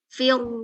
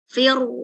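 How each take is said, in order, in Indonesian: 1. Bunyi r-nya bulat, bibir didorong ke depan. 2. Bunyi r-nya bulat, bibir didorong ke depan.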